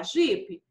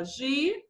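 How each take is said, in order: First: Said in the usual way. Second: "Ji-pe" said as two clearly parted syllables, "Ji" then "pe"; split into syllables. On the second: Shown as a demonstration. Teacher shows pupils how to split the word into syllables, "Ji-pe" said syllable by syllable. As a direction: break "Ji-pe" apart syllable by syllable. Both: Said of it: "eu vou separar a sílaba".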